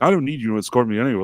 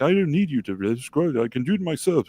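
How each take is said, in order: First: Quick, mildly annoyed brush-off; imitating someone irritated, in own voice. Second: Higher-pitched mock British accent. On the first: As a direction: retell a curt refusal at a fast pace. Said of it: "she got really annoyed". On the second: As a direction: imitate an annoyed woman's nice British accent. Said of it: "in this nice British accent".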